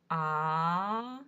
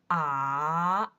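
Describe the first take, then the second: First: The pitch rises from mid to high. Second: The pitch dips low and then rises. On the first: "Second tone, the rising one" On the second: "The third tone, you'll hear the deep down at first"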